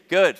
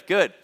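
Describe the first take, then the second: Both takes have the same delivery.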